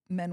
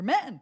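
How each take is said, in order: First: It is said in a low, negative way. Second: It is said in a bright, happy way. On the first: Men are viewed with disapproval. The speaker calls it wrong. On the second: Men are viewed approvingly. The speaker calls it right.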